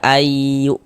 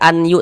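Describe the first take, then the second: First: The n sound is merged into the y. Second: The n sound is pronounced separately before y. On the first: The speaker calls it right. "tapi dibaca ayu" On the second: The speaker calls it wrong. "Jangan baca anyu"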